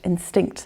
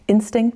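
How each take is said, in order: First: The stress is on the second syllable. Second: The stress is on the first syllable. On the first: This is the German word. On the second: This is the English word.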